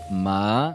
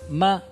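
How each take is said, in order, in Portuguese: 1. A altura sobe de baixa para média. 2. A altura fica alta e plana. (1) "um tom deslizante de baixo para médio" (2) "é um tom pontual alto"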